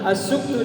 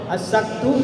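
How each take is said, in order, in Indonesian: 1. Vokal setelah s adalah u. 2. Vokal setelah s adalah a. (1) "asuktu dengan dhamma" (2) "asaktu dengan fathah"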